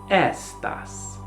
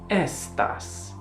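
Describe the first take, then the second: First: It is said with the Italian pronunciation. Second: The same.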